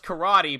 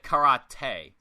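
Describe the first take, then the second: First: It is said the ordinary English way. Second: It is said an odd, put-on way. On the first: "he does karate" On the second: "he calls it karate. / like SpongeBob"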